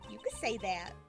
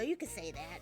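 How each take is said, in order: First: Spoken without an old lady's voice. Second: Spoken in a put-on old lady's voice. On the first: The speaker calls it wrong. "This is not the right accent. And that's not a voice either" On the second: The speaker calls it right. "She had more of an old lady voice. We're just going with it"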